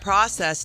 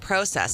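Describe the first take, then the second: First: The word is said in a standard, unmarked way. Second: The word is said with a Canadian-sounding pronunciation.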